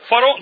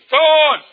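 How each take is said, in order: First: The word is said in full. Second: The word is said with sounds dropped. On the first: The speaker calls it right. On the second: The speaker calls it wrong.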